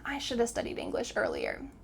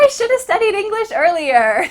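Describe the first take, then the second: First: It is said seriously, with a regretful tone. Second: It is said cheerfully, as if smiling. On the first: The speaker calls it right. "you're a little serious" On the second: The speaker calls it wrong. "make sure that you're not smiling, oh"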